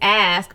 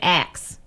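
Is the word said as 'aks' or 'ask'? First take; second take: ask; aks. First: The s sound comes before the k. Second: The k sound comes before the s. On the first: "it's ask" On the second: "they pronouncing it axe"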